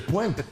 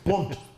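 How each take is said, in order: First: The vowel is a 'wa' sound. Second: The vowel is a plain 'o' sound. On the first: This is the standard form of the name. "C'est Pointe" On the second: This is how local people say the name. "c'est comme ça qu'on prononce, nous"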